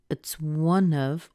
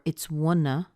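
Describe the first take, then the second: First: The V sound at the end is kept. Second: The V sound at the end is dropped. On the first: "You can push that N into the vowel after it" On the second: "or it's wanna"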